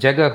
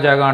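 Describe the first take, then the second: First: The final h is clearly pronounced at the end. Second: The final h is dropped, with a long first vowel. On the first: This is the standard form of the word. "అది జగహ్ జగహ్ అది హా అనేది హిందీ వాళ్ళకి యాక్చువల్గా పలకరు" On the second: This is the local everyday form. "మనం ఏమంటాం జాగా జాగా అంటూ ఉంటాం"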